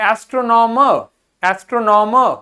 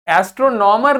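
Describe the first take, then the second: First: एस्ट्रोनॉमर ending in a soft, barely-there r; एस्ट्रोनॉमर with just a light r at the end; soft final r. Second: एस्ट्रोनॉमर with a clear final r; एस्ट्रोनॉमर with the r sounded at the end; wrong way with final r. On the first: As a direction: say एस्ट्रोनॉमर with only a light hint of r. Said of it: "हल्का सा रा आना चाहिए". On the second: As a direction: say एस्ट्रोनॉमर ending on r, as the wrong example. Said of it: "एस्ट्रोनॉमर नहीं". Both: Shown as a demonstration.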